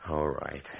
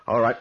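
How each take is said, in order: First: Said in the usual way. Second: Much louder and higher; defiant shout. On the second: Acted. Man shouting defiance at the unseen presence. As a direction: throw it out as a challenge. Challenges the ghost.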